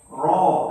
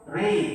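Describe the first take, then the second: First: The vowel is a full open sound. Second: The vowel leans toward an 'i' sound.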